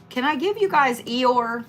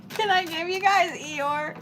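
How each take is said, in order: First: Said in the usual way. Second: Higher, softer mopey donkey voice; mock Eeyore voice. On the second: Tarot reader asks viewers in a soft mock Eeyore voice. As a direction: say it again like a gloomy Eeyore. Repeats the line in a silly voice.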